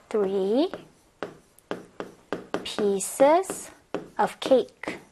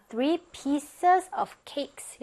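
First: "three ... pieces ... of cake" in separate pieces with long pauses; slow dictation. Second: Said in the usual way. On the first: Shown as a demonstration. Teacher writing out the corrected answer, slow dictation. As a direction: dictate "three pieces of cake" word by word, rising until the last part.

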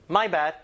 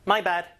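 No difference in how they are said.

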